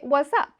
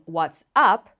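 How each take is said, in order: First: The phrase is squeezed into a casual, reduced form. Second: The phrase is said carefully with every sound. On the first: "a lot of times we just say" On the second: "instead of saying"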